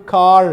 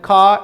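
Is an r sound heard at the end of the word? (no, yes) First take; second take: yes; no. First: The word ends with a clear r sound. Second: The word ends in a vowel with no r sound. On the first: The speaker calls it right. "it will be kar" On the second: The speaker calls it wrong. "It will not be pronounced like ka"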